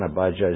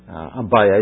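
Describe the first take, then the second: First: The middle consonant is a j sound. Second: The middle consonant is a y sound. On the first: The speaker calls it wrong. "Abijah is not the right" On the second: The speaker calls it right. "Abijah is really the correct one. Avi means father and Yah means God"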